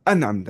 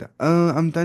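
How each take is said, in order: First: अनअमत with a clear n straight into the ain; crisp n in अनअमत, no nasal hum; correct izhar. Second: अमता led by a held nasal hum for the n; wrong nasal hiding. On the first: Teacher showing how to read it, clear noon in अनअमत. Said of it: "कैसे पढ़ना है?". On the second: Teacher showing the mistake, nasalised noon before अमता. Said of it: "अमता नहीं". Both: Shown as a demonstration.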